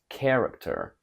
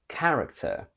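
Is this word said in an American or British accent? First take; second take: American; British. First: An American accent with a lowered vowel. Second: A British accent with the vowel of bad. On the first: "From British to American" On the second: "From British to American"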